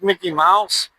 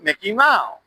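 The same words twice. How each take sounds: First: It is said in a plain American accent. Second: It is said in a Thai accent.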